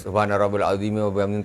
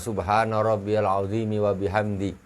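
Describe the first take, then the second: First: It is rattled off quickly and carelessly. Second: It is recited slowly and deliberately. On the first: The worshipper just wants to finish quickly. The speaker calls it wrong. "entah cepat ... Pokoknya nak cepat selesai aja sudahnya" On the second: The meaning is taken to heart. The speaker calls it right. "Itu kayak gitu. Di maksudnya diresapi"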